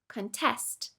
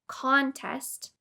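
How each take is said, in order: First: The stress is on the second syllable. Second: The stress is on the first syllable. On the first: It is a verb meaning to oppose. "or on the second syllable" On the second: It is a noun meaning a competition. "put stress on the first syllable"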